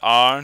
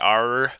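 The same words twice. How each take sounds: First: The final r sound is dropped. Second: The final r sound is pronounced. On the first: "they're frequently deleted post-vocalic" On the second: "not the R"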